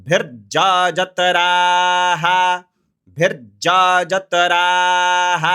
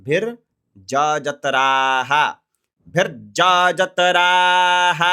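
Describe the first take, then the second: No difference in how they are said.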